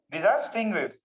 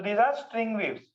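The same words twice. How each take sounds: First: Said in the usual way. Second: Slow, spaced-out dictation pace; each word laid out slowly for notes. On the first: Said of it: "तो these are string waves". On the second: Shown as a demonstration. Teacher dictating to students, slow and spaced.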